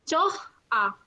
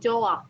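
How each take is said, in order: First: An h sound is pronounced in the middle. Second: No h sound is pronounced in the middle. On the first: It follows the written spelling letter by letter. "Ini kan contoh kata aslinya ya, tulisannya" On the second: It is the usual spoken form. "maka hiatnya itu eh, sering nggak dibaca, jadi langsung joa"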